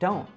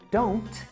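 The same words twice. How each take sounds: First: The final T is a glottal stop. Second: The final T is fully released. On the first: "he says don't" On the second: "instead of don't"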